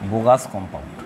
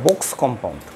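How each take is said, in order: First: The first word has two syllables, like bogus. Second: The first word has one syllable, like box. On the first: The speaker calls it wrong. "এরকম pronunciation করা যাবে না" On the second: The speaker calls it right. "ওটা বক্স compound"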